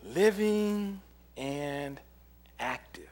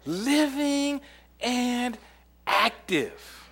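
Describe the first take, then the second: First: Slow emphasis. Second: Very slow, high, drawn-out proclamation; slow emphasis. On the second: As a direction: stretch each word like a proclamation. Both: Shown as a demonstration. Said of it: "drawn out scripture phrase".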